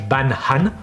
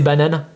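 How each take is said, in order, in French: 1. Le mot est prononcé avec un accent exagéré et forcé. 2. Le mot est prononcé avec un accent français normal. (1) "en exagérant, ... c'est un peu comme ça que je le lisais" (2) "prononcé avec un accent français"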